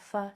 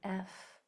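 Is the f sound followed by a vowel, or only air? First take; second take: vowel; only air. First: A voiced vowel follows the f sound. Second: Only a stream of air is heard. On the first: The speaker calls it wrong. "it's not fa" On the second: The speaker calls it right. "There's no sound, only air"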